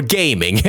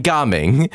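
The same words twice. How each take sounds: First: Gaming said like the English word, GAY-ming; common mispronunciation. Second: Gaming said GAH-ming, with an open "ah"; proper name pronunciation. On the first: Host offering viewers' likely version, Gaming said as GAY-ming. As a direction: say Gaming with a long "ay". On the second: Host recapping the two reveals, Gaming said correctly as GAH-ming. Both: Shown as a demonstration. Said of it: "as most of you would probably pronounce it".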